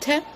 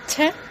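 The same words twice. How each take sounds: First: The t is made the Arabic way. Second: The t is made the English way. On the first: "this is an Arabic sound" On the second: "this is an English sound"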